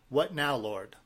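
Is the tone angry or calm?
calm. It is said calmly and openly.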